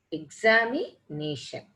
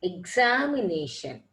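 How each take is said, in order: First: "Examination" with a break before the last two syllables, exami, nation; divided word. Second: Said in the usual way. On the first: Shown as a demonstration. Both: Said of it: "Words more than two syllables".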